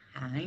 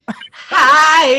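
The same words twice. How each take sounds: First: The greeting is said flatly, with little energy. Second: The greeting is said with lively, higher energy.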